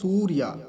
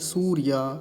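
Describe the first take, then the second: First: The first vowel is short. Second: The first vowel is long. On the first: The speaker calls it wrong. "सूर्या नहीं" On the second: The speaker calls it right. "क्योंकि दीर्घ ऊकार है, बड़े ऊ की मात्रा है"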